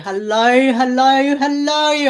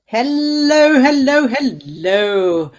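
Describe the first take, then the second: First: It is said in an imitated Australian accent. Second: It is said in the speaker's usual accent.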